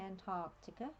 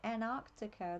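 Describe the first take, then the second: First: Every middle consonant sound is pronounced. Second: A middle consonant sound is left out. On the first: This is how Australians say it. "but we say Antarctica" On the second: This is how Americans say it. "from what I've heard on Stargate, ... They don't have a T in it"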